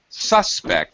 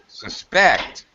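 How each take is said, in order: First: The stress is on the first syllable. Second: The stress is on the second syllable. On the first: It is used as a noun. "When it's a noun, first syllable stress" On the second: It is used as a verb. "Second syllable stress when it's a verb"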